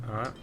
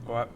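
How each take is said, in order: Both takes have the same delivery.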